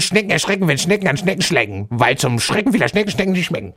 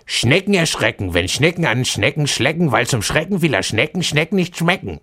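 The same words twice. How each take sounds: First: It is said faster still. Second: It is said fast.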